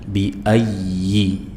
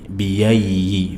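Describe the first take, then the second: First: A clear catch separates the vowels, stressing ayyi. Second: The vowels glide together with a y sound. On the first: The speaker calls it right. "bi ayyi ada penekanan" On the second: The speaker calls it wrong. "jangan dibaca mirip ya biyai"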